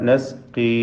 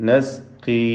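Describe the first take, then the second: The two takes are said the same way.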